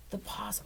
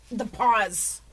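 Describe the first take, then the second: First: Whisper. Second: Said in the usual way. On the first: Pretend. Repeating the phrase as a whisper.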